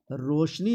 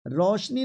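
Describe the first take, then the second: First: रोशनी with a plain round "o"; रोशनी as "roshni", the model version; correct pronunciation. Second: रोशनी with a wide "au", like "raushni"; रोशनी shown with the double-stroke vowel; wrong pronunciation. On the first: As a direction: keep the first vowel of रोशनी a pure o. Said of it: "रोशनी होता है". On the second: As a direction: open the first vowel of रोशनी. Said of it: "डुल्ले की मात्रा नहीं". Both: Shown as a demonstration.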